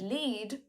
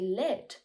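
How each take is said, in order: First: The vowel is long, as in need. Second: The vowel is short, as in red. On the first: It is the verb meaning to guide. "when used as a verb, has the same E sound as in need" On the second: It is the noun naming the metal. "It has the same E sound as in red"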